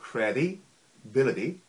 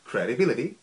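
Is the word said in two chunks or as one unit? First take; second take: two chunks; one unit. First: The word is broken into two chunks. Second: The word is said smoothly as one unit. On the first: "두 덩어리로 끊어서 한번 발음하라고" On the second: "합심은"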